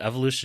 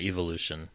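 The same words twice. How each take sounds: First: The word is said with an American pronunciation. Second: The word is said with a British pronunciation. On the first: "the American" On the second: "the British pronunciation"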